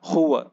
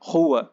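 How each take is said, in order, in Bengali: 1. শব্দটি গলার ভেতর থেকে আসা হ-এর মতো শব্দ দিয়ে শুরু হয়। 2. শব্দটি গলার ভেতর থেকে আসা হ-এর মতো শব্দ দিয়ে শুরু হয়।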